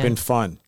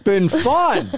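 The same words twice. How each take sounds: First: It is said flatly, without excitement. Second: It is said with more excitement. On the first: The speaker calls it wrong. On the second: The speaker calls it right.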